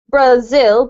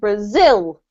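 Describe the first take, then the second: First: The stress is on the first syllable. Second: The stress is on the second syllable. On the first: The speaker calls it wrong. "you don't say Brazil" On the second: The speaker calls it right. "You have to put the emphasis on the second syllable"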